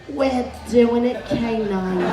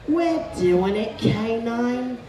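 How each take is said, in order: The two takes are said the same way.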